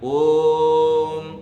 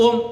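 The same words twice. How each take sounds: First: The 'o' vowel is drawn out long. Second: The 'o' vowel is short and hurried. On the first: The speaker calls it right. "उसका ठीक उच्चारण वो है" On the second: The speaker calls it wrong. "ओम ऐसे नहीं बोलना है"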